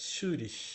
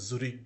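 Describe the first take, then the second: First: The word ends with a soft 'sh' sound. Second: The word ends with a hard 'k' sound. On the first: The speaker calls it right. "এটা সুরিশ বললাম" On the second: The speaker calls it wrong. "আমি কিন্তু এটা জুরিক বলি নাই"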